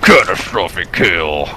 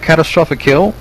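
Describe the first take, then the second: First: It is said in a dramatic announcer voice. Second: It is said in a plain speaking voice.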